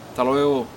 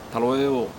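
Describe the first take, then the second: First: The S sound is dropped. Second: The same.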